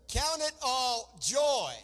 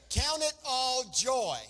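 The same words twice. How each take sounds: Both takes have the same delivery.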